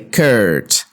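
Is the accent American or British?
American. It is said with an American accent. "In American English they say"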